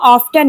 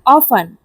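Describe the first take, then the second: First: The t sound in the middle is pronounced. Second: The t sound in the middle is silent. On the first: The speaker calls it wrong. "इसको हम ऑफ्टन नहीं" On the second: The speaker calls it right. "यहाँ ऑफन में टी silent होता है"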